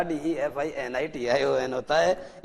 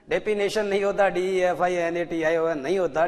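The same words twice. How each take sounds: First: Slow, careful 'def-i-ni-shun' for डीईएफ़आईएनएटीआईओएन; the right way to say डेफिनेशन; correct pronunciation. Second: डेफिनेशन said as a sloppy 'de-pi-nay-shun'; the wrong way, 'डेफिनेशन' with a blurred f; wrong pronunciation. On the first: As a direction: spell it out clearly and slowly. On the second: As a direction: mispronounce डेफिनेशन on purpose. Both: Shown as a demonstration. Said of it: "pronounce the word properly".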